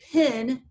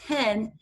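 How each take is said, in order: First: The vowel sounds like a short I. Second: The vowel sounds like a short E. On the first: "a lot of times we'll say pin, it sounds like a short I" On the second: "instead of pen with a short E"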